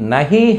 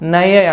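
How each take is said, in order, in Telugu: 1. మధ్య h ధ్వని స్పష్టంగా పలుకుతారు. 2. మధ్య h ధ్వనిని పూర్తిగా వదిలేస్తారు. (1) "నహి హై యాక్చువల్గా" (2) "ఎలా ప్రొనౌన్స్ చేస్తున్నారు నయే అంటున్నారు"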